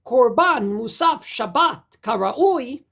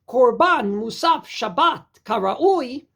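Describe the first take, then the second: First: The phrase breaks after Shabbat, before karaui. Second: The phrase breaks after Shabbat, before karaui.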